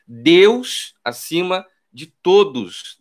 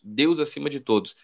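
First: Very slow, weighty motto; drawn-out declaration; slow solemn slogan. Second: Softer, quiet echo of the motto; quiet afterthought repeat. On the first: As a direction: pronounce it like a banner slogan. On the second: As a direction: say it again under your breath. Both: Shown as a demonstration. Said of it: "com uma placa dizendo".

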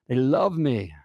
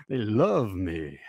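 First: Said in the usual way. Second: Lower, slow, smug drawl; slow it down and savour the brag; mock proud plumber. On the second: Coach mocking a truck-loving plumber, low slow smug drawl.

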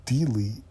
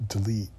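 First: "Delete" with a long DEE at the start; mispronounced delete. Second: "delete" with a short first vowel, di-LEET; corrected delete. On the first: Speaker checks her own odd pronunciation, mispronounced "Delete" as dee-leet. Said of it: "why did I say it like that". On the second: Speaker finds the pronunciation she was looking for, corrected "delete" as dih-leet. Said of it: "There we go". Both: Shown as a demonstration.

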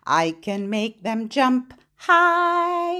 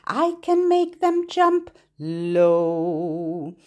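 First: Voice up high. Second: Voice down low. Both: Shown as a demonstration. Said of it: "Lift your hands up high".

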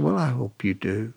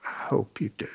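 First: Said in the usual way. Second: A soft unvoiced echo; whispered. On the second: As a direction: drop it to a whisper the second time. Repeats his wish to the man.

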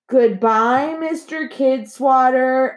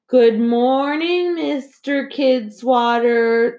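First: Slow sing-song chorus, pitched high; high, drawn-out classroom chorus; children in unison. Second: Slow sing-song chorus, pitched high; high, slow, dutiful schoolkids chanting; children in unison. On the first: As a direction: stretch it out like a whole class answering together. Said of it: "everyone said together". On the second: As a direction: drag it out like a class greeting the principal together. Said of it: "the children said in unison". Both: A narrator's reading.

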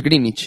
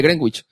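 First: "Greenwich" said "grinich", the w silent; real English pronunciation. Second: "Greenwich" said "grengwich", as spelled; Spaniards' pronunciation. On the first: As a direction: say "Greenwich" as "GRIN-ich". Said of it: "pero es Greenwich". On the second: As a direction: say "Greenwich" with a sounded w, Spanish style. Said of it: "nosotros lo decimos". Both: Shown as a demonstration.

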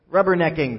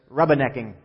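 First: Said in the usual way. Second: Mock Long Island accent with dropped R; lightly put-on Long Island "rubbernecking", said "rubba-necking". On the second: Pastor quoting Long Islanders on traffic, Long Island accent. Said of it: "according to Long Islanders".

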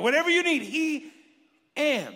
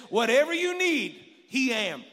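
First: Higher, louder, savoring it; repeating the punchline. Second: Higher, louder punchline; quoting a preacher. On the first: Shown as a demonstration. Pastor repeating a saying he likes, louder and higher. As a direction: say it again with delight. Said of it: "I like it". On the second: Retold or imitated. Pastor retelling another preacher's saying, loud punchline. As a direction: throw it out like a preacher's line. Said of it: "one preacher... he said this".

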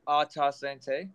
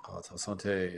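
First: Slow, careful French accent on "Ah, ta sante"; French Canadian toast said slowly. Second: French echo. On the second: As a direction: repeat "Ah, ta sante" in a plain French accent. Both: Shown as a demonstration. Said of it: "always go proper this time".

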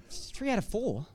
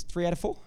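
First: Incredulous repeat through a laugh; can you believe it, chuckling; laughing disbelief. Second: Said in the usual way. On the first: Real, not acted. Preacher repeats the father's words to the congregation, laughing in disbelief. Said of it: "That's like seventy-five percent". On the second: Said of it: "He goes".

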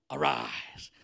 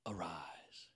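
First: Loud, unvoiced burst of breath; forceful command. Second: Low, soft whisper; hushed command. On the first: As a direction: push the word out strongly. Repeats the command with more force. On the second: Acted. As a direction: breathe the command gently over her. Jesus tenderly raises the girl.

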